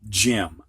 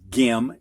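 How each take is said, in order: First: The word begins with a J sound. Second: The word begins with a hard G sound. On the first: The speaker calls it right. "so it's pronounced like a J" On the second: The speaker calls it wrong. "Instead of gim"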